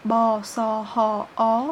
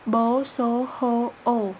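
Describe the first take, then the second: First: "Ba, sa, ha, a" with open Khmer A-series vowels. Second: "bo, so, ho, o" with closer Khmer O-series vowels; rounded O on each of "bo, so, ho, o". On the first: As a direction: recite "Ba, sa, ha, a" as separate open syllables. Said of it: "la série des consonnes en A". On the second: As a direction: recite "bo, so, ho, o" as separate rounded syllables. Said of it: "en consonnes de la série O". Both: Shown as a demonstration.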